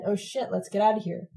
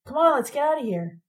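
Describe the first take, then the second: First: Said in the usual way. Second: High, hurried urgency; urgent. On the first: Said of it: "Ron said". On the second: A narrator's reading. Ron hurries the girls after the crash, urgent. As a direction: push them to move now. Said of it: "and said with urgency".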